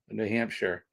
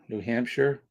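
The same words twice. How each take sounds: First: The last syllable sounds like 'sheer'. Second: The last syllable sounds like 'sure'. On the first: "all the English regions end saying sheer" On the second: "We say sure"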